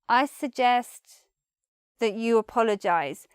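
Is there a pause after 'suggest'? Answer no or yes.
yes. It is soft, with a pause after suggest.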